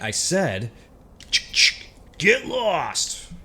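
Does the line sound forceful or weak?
forceful. It is said forcefully, with real authority.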